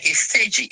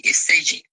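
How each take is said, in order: First: Said in the usual way. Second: Hushed whisper of the name. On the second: Retold or imitated. Commenters telling her the name.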